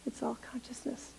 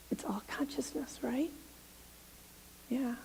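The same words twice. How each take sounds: First: Soft whispered echo. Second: Hushed whisper. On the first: Minister repeating the point to the congregation, whispered. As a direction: let it fall to a whisper. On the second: Minister confiding to the congregation in a whisper. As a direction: breathe it like a secret. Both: Real, not acted.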